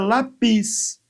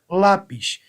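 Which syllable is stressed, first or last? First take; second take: last; first. First: The stress is on the last syllable. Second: The stress is on the first syllable. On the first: The speaker calls it wrong. "Se fosse a última, seria" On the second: The speaker calls it right. "eu tenho como sílaba tônica a penúltima sílaba da palavra"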